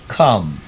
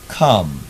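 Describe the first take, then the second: First: The vowel sits between 'or' and 'a' sounds. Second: The vowel sits between 'or' and 'a' sounds.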